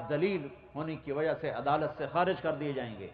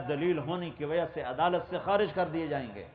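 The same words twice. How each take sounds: The two takes are said the same way.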